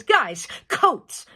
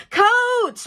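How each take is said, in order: First: "Guys" stressed and rising, "coats" pressed firmly; renewed emphasis. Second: Loud, much higher call across the house. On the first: Mother repeating her order to the kids, renewed emphasis. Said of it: "with renewed emphasis". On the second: Mother calling to her kids to get coats, loud call. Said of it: "then calls out". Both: Acted.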